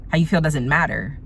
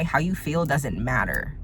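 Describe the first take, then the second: First: "How you feel doesn't matter" repeated firmer, weight on "feel"; a firm second pass, "feel" stressed. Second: A quiet slowed-down first pass of "How you feel doesn't matter"; slow, dropped statement. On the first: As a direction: hammer the point home with "feel". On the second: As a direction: let it sink in, quiet and slow. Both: Shown as a demonstration.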